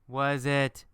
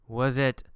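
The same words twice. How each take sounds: No difference in how they are said.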